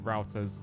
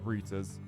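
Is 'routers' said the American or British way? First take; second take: American; British. First: It is said with an American pronunciation. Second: It is said with a British pronunciation. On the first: "mock Americans last time for calling it routers" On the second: "and not routers"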